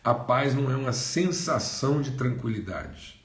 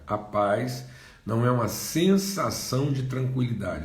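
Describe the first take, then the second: First: It is said at normal speed. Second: It is said slowly.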